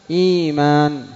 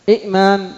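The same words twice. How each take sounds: First: إيمان with long smooth ii; ya replacing hamza. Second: إئمان high, glottal stop after first i; original double hamza. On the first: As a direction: stretch the start of إيمان, no stop. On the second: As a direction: break إئمان as 'i'maan. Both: Shown as a demonstration. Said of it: "الياء من الهمزة".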